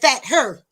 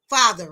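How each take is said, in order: First: It is split into two words, fat and her. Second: It is said as one joined word. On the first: "He said fat her" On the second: "if you put fat and her together"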